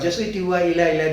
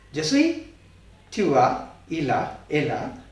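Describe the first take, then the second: First: The phrase is said very fast and rhythmically. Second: The phrase is said at a normal, careful pace.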